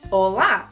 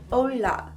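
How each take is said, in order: First: It is said with a native Brazilian accent. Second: It is said with a gringo English-speaker accent.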